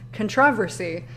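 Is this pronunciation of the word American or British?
British. The word is said the British way. "so he says controversy, and I was like, is that how people in the UK say it?"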